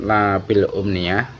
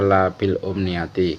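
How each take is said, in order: First: The phrase ends with a bare 'ah' sound. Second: The phrase ends with a full 'ati' ending. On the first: It is read as verse. "ketika kita nazamkan eh, taknya disukun" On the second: It is read after a preposition, for meaning. "ketika kita maknai kita baca labil umniyati"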